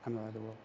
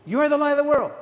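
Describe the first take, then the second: First: Imitating a shy, soft, low mumbled reply; timid mumble. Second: Imitating a booming shout, much higher and louder. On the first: Packed church mumbling the line back, soft and low. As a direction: mimic a congregation too self-conscious to say it. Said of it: "you know how they said it?". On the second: Congregation telling the person next to them, booming. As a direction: boom it out to the person beside you. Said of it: "it was booming".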